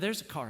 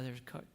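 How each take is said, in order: First: It is said louder, with rising volume. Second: It is said quietly, at low volume. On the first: A more urgent, panicked warning. "I said it like that, and it was getting gradually louder" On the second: A gentle, hesitant warning. "pretty quietly"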